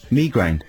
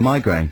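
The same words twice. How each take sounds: First: The word gets the speaker's own pronunciation. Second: The word gets its usual standard pronunciation. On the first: "I say migraine" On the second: "Instead of"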